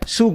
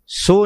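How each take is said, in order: First: The vowel is a very short u. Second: The vowel is a full o sound. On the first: The speaker calls it right. "सस्से नू औंकड़ ते थोड़ा जा उचारण" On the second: The speaker calls it wrong. "सो नहीं पढ़ना"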